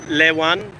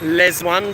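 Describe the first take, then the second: First: The second word starts without a z sound. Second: The second word starts with a z sound. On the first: This is the Southern way of saying it. "The Southerners would pronounce that not with a Z sound" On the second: This is the Northern way of saying it. "what the Northerners would call"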